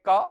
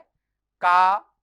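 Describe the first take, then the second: First: The vowel is held for one short beat. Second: The vowel is held for two beats. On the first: "तो ये ह्रस्व है" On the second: "ये दीर्घ है"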